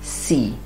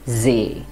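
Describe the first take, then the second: First: It is said like the English word sea. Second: It is said with the German long e vowel. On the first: "you will pronounce it as C" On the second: "but in German, it becomes See"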